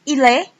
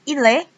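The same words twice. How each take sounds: Both takes have the same delivery.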